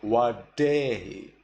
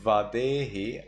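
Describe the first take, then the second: First: Vadehi said as wa-DEH-hi; Burmese reading. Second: Vadehi with a V and blunt D; standard reading. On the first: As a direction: round V to W in vadehi, sharpen the D. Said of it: "I say vadehi". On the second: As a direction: say vadehi as written, buzzed V. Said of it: "Instead of vadehi". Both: Shown as a demonstration.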